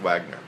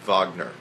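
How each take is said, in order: First: The name is said as it is spelled. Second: The name is not said as it is spelled. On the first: The speaker calls it wrong. "even though it looks like Wagner" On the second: The speaker calls it right. "It's a Wagner"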